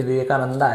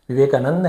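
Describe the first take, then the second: First: विवेकानंदा with an aa after the d; Anglicised विवेकानंदा, long final vowel; English-style ending. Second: विवेकानंद closed on nd, no final aa; विवेकानंद with a short consonant ending; native Hindi ending. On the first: Retold or imitated. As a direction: end विवेकानंदा on open -daa. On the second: Shown as a demonstration. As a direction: stop विवेकानंद at the d. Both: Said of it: "ऐसे कर देते".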